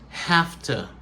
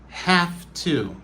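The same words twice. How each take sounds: First: The words blend together with an f sound. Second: Both words are said fully with a v sound. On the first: "réduction, c'est have to" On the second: "Ça, c'est la prononciation normale"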